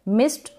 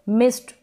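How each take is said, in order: No difference in how they are said.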